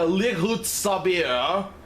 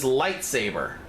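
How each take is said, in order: First: The word is said with altered, odd vowels. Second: The word is said in its usual form. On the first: The speaker calls it wrong. "The second somebody calls it a lighut sabir, I'm gonna punch somebody" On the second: The speaker calls it right. "The only thing that doesn't have two pronunciations"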